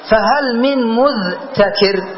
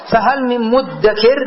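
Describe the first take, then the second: First: "مذتكر" very slow, split as mudh-takir; underlying form. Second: "مدكر" slowly, as muddakir with doubled d; assimilated form. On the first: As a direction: pull "مذتكر" apart into dh and t. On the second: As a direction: say "مدكر" merged, no dh or t. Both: Shown as a demonstration. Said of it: "أصلها إيش؟".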